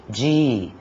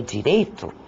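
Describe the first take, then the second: First: "direito" broken into di, rei, to; syllable by syllable. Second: Said in the usual way. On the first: Shown as a demonstration. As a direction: separate each syllable of "direito" with a pause. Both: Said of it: "nós temos três sílabas".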